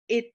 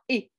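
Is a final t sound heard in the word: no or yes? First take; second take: yes; no. First: The word ends with an audible t sound. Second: The word ends without any t sound. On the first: The speaker calls it wrong. "ne dites pas et" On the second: The speaker calls it right. "dites bien et. Il y a- on ne prononce pas le T"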